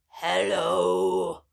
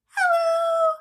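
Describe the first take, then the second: First: It is said in a very low voice. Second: It is said in a very high voice.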